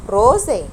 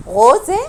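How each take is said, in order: First: "روزة" starting on a tongue-tip r, falling; tapped R. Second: "غوزة" starting on a throaty gh, tune rising. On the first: Teacher offering the second of two R options, tapped R. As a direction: say "روزة" slowly with r as in Arabic ra. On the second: Teacher offering the first of two R options, throaty R. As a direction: say "غوزة" with the r like Arabic ghayn. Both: Shown as a demonstration. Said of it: "أنا نطقته إر ولا نطقته إغ".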